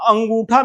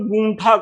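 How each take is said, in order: First: The word begins with a vowel sound. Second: The word begins with a consonant sound. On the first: This is the full standard form. "पूरा अंगूठा नहीं कहेंगे" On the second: This is how dialect speakers say it. "ये केवल गूंठा कहेंगे"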